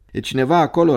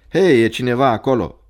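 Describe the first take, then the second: First: Higher, uneasy questioning call; uneasy repeat. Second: Loud call into the night. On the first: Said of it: "repetă el întrebarea neliniștit". (întrebare repetată neliniștit) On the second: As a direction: call out to whoever is there, starting strong. Calling out to unseen footsteps. (strigăt în noapte) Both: A narrator's reading.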